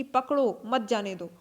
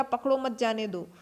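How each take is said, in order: First: "पकड़ो", pause, then "मत जाने दो" together; comma pause. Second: Said in the usual way. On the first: Shown as a demonstration. Teacher reads a comma after "पकड़ो" to students, pausing there. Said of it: "इसको कुछ इस तरह पढ़ेंगे कि". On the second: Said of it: "एक sentence हो जाएगा".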